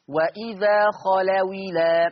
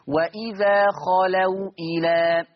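First: The w takes an i and the glottal stop drops. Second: The w is silent and the glottal stop is kept. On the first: "لو انا قرأتها بالنقل" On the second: "ان الواو ساكنه لما قرأت المثال الاولاني"

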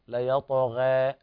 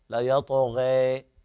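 First: The final vowel is midway between a and e. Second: The final vowel leans fully toward an e sound. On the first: "التقليل حالة وسط بين الفتح والإمالة" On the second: "الإمالة"

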